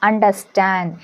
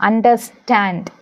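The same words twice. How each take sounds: No difference in how they are said.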